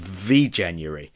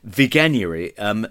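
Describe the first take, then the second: First: The g is said soft, like a j. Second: The g is said hard, as in go. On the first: The speaker calls it wrong. "I thought it was V-January" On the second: The speaker calls it right. "the G in Veganuary is hard"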